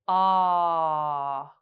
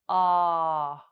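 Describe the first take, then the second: First: The vowel is held for about three seconds. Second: The vowel is held for about one second. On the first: "hold the ah sound for three seconds" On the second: "then one second"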